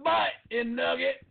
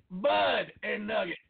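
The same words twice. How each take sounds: First: The mistaken version, Butt with a crisp t sound; wrong name. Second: Bud said slowly with a clear voiced d; right name. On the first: Correcting a co-host, says the wrong Butt with a hard t. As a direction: Butt said with a hard final t, like the body part. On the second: Correcting a co-host, slowly stresses Bud with a clear d. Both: Shown as a demonstration. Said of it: "Not Butt and Nugget".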